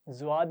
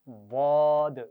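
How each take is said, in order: First: It starts with the tongue tip touching the front. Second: It starts with the tongue side touching, sounding heavy. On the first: It is the Urdu name of the letter. The speaker calls it wrong. "ज़्वाद नहीं पढ़ेंगे, जुबान की नोक सामने नहीं लगानी" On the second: It is the Arabic name of the letter. The speaker calls it right. "सामने जुबान नहीं लगानी बल्कि साइड पे लगाकर पढ़ें"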